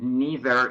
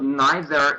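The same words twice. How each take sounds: First: It is said with an American pronunciation. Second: It is said with a British pronunciation. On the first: "neither is American" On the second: "neither is British"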